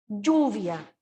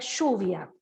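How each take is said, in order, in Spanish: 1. Se dice con pronunciación chilena. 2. Se dice con pronunciación argentina. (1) "nosotros decimos lluvia" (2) "Al otro lado de la cordillera dicen lluvia"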